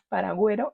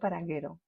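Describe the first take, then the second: First: The u after the g is clearly sounded. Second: The u after the g is not sounded. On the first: The speaker calls it right. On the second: The speaker calls it wrong. "y no paraguero"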